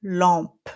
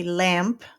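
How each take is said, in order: First: Lampe with an open nasal an, no clear M; French nasal. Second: Lamp with the English A and M; English word. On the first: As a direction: drop jaw into lampe. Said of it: "but we say lampe". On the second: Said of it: "in English you say lamp". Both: Shown as a demonstration.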